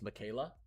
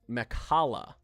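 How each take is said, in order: First: The name is said like Michaela. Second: The name is said like Mekhala. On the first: The speaker calls it wrong. "I was pronouncing this wrong before" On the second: The speaker calls it right. "Apparently it's Mekhala"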